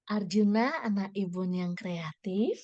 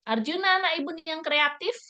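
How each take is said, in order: First: It is said in a soft, gentle voice. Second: It is read in a plain, ordinary voice.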